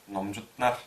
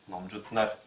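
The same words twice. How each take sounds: Both takes have the same delivery.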